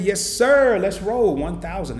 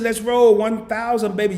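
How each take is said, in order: First: Loud, slow rally echo; excited echo. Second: Excited read-out. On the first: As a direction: echo the rally cry back. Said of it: "echoes the goal, hyped". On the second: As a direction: shout the goal like a rally cry. Hyped reading of a goal. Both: Real, not acted.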